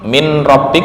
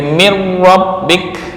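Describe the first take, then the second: First: The n is pronounced before the r. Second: The n merges completely into the r. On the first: "min min rabbik" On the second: "menjadi mir rabbik"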